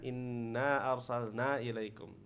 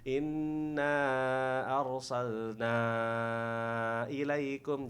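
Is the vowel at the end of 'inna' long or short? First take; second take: short; long. First: The final vowel of inna is cut short. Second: The final vowel of inna is held long. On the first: The speaker calls it wrong. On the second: The speaker calls it right. "Inna harus panjang ya"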